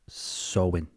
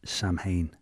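First: The sounds are softened, close to 'sow-in'. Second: Every sound is read out literally, like 'sam-hane'. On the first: The speaker calls it right. "But it's pronounced Samhain, apparently" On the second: The speaker calls it wrong. "if I was to say it phonetically, as it's written"

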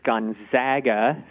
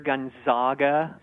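First: The middle syllable rhymes with bag. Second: The middle syllable does not rhyme with bag. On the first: The speaker calls it right. "think of zag as in bag. And that's the right pronunciation" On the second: The speaker calls it wrong. "we tend to hear Gonzaga a lot"

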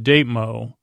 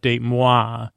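First: The name ends with a plain 'mo' sound. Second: The name ends with a French 'mwa' sound. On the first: "but it's a Datemo" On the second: "I guess I would pronounce it date moi"

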